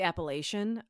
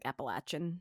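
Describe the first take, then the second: First: The word is said in a Midwestern way. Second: The word is said in the local way. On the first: The speaker calls it wrong. "I'm one of those like dirty Midwesterners that probably don't say it right. I say Appalachian" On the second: The speaker calls it right. "pronunciation that it should be is like Appalachian"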